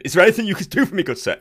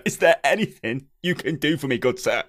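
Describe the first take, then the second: First: Quick, high, louder Victorian English plea; Victorian English gentleman. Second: Measured ye olde English question; Victorian English gentleman. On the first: Customer without internet asking for help, quick high Victorian English. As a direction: rattle it off as a ye olde English gent. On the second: Customer repeating his plea for help, measured Victorian English. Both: Acted. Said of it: "a ye olde English Victorian-y style".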